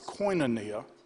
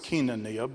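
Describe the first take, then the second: First: It is said with a Southern US pronunciation. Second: It is said with a Greek pronunciation.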